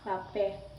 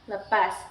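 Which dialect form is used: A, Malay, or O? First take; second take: A; Malay. First: The word is said in the A dialect form. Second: The word is said in the Malay dialect form. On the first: "Yang kedua dialek A" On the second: "Yang pertama dialek Melayu. Penyebutannya seperti"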